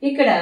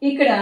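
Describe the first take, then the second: No difference in how they are said.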